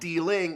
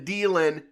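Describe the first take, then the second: First: The ending is said with the final g sound. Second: The ending is said without the final g sound. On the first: "not dealing" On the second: "when the dealing"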